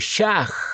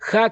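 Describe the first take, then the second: First: The word begins with a sh sound. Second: The word begins with a breathy h sound. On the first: The speaker calls it wrong. "muchos lo pronuncian como Shach" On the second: The speaker calls it right. "el saludo hebreo para la fiesta de Sukkot es Hag Shameach Sukkot"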